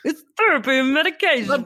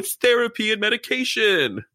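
First: It is said in an exaggerated, put-on voice. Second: It is said in a plain, natural voice.

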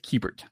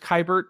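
First: The first syllable sounds like 'key'. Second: The first syllable does not sound like 'key'. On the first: The speaker calls it right. "there's a key in there. So it's Kiebert" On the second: The speaker calls it wrong. "when he first came up, I thought it was Kiebert"

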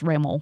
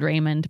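First: The name has a French-style pronunciation. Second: The name has an English-style pronunciation. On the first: "it's pronounced Raymond because it's Creole French" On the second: "It's spelled Raymond"

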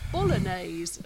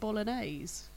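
First: It is said with an odd, questioning inflection. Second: It is said with a plain, normal inflection. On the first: The speaker calls it wrong. "said it weird" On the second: The speaker calls it right. "as opposed to bolognese"

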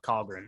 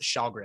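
First: The name begins with a k sound. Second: The name begins with an sh sound. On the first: The speaker calls it wrong. "not Kahlgren" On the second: The speaker calls it right. "you pronounce it Shalgren"

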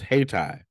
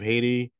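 First: The second syllable sounds like 'tie'. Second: The second syllable sounds like 'tee'. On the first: The speaker calls it right. "Haiti is pronounced Hay-Ti" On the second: The speaker calls it wrong. "so I pronounced it wrong"

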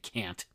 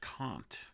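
First: The name is said the plain everyday way. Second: The name is said the academic way. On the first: This is how an ordinary person says it. "I'd say Kant" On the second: This is how stuffy academics say it. "they'll pronounce it Kant"

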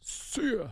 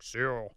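First: The words are said in an ordinary voice. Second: The words are said in a put-on deep voice. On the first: "And I'll say it like that" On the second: "in a deep voice"

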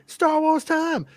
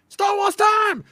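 First: It is said in the speaker's own voice. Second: It is said imitating a Japanese accent.

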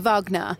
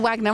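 First: The name has a German-style pronunciation. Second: The name has an English-style pronunciation. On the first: This is how it is said in Germany. "If you're talking in Germany, then it would be Wagner" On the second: This is how it is said on British television. "if you're watching The X Factor, maybe you change it to Wagner"

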